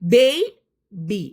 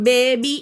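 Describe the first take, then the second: First: The first vowel glides as 'ey'. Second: The first vowel is a plain, unglided 'e'. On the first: The speaker calls it right. "ആ എ നമ്മളൊന്ന് എയ് എന്ന് വിളിക്കും" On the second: The speaker calls it wrong. "ശരിക്കും അതിന്റെ ഉച്ചാരണം ബേബി അല്ല"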